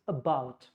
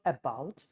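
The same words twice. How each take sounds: First: About with a light uh at the start; schwa about. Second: About with a full A at the start; wrong full vowel. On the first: Teacher showing the right way. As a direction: say about with the first vowel reduced. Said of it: "it's about". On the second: Teacher showing the wrong way. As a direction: say about with a strong first vowel. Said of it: "it's not about". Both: Shown as a demonstration.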